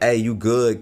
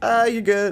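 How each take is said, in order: First: It sounds brusque and dismissive. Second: It sounds cheery and friendly.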